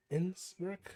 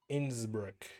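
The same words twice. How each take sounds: First: "Innsbruck?" thrown up much higher as a startled question; "Innsbruck?" with a sharp rising surprise; surprised echo. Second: Said in the usual way. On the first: Shown as a demonstration.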